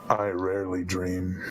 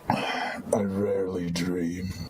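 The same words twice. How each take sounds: First: It is said in a less grim tone. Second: It is said in a darker, grimmer tone. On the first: "that was cheerful" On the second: "an even more grim, dark, dark, grim, grimness?"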